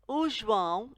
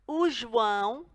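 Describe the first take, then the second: No difference in how they are said.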